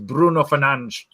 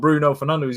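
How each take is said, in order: First: The name is said with Portuguese-style sounds. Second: The name is said with English-style sounds. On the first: The speaker calls it right. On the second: The speaker calls it wrong. "is not"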